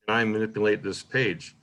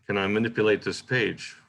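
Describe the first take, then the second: First: Slowed by the question mark. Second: Quicker read with no question mark; swifter. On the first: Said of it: "Then you see the question mark". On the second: Teacher showing students the line read without a question mark, swifter. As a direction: let it run on swiftly. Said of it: "It's swifter". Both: Shown as a demonstration.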